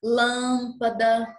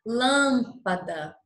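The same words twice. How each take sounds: First: "lâmpada" slowly, stressed nasal lâm; slow demo. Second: "lâmpada" slowly, stressed nasal lâm, falling; slow demo. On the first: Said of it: "Percebam a grande diferença". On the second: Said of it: "Olha a diferença". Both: Shown as a demonstration. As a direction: draw out "lâmpada", weight on lâm.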